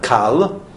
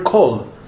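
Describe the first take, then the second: First: The vowel is a. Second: The vowel is o. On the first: The speaker calls it wrong. "It's not kal" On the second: The speaker calls it right. "it's just like the word kol"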